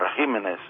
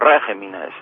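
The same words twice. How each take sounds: First: The stress is on the second syllable. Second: The stress is on the first syllable. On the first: The speaker calls it right. "Serían los regímenes al plural" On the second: The speaker calls it wrong. "no tenemos ese acento, esa vocal tónica en la cuarta sílaba empezando por el final"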